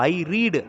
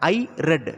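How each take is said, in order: First: The vowel is long, as in 'reed'. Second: The vowel is short, as in 'red'. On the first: The reading happens now. "ரீடு அப்படின்னு சொன்னோன்னா present tense" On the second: The reading happened in the past. "ரெட் colour, ரெட், அதுதான் past form of ரீடு"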